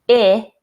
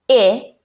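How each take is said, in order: First: A short vowel, as in 'it'. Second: A short vowel, as in 'it'.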